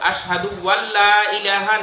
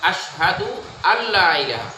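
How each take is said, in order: First: A w sound is added before alla. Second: Alla begins directly with a vowel. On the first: The speaker calls it wrong. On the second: The speaker calls it right.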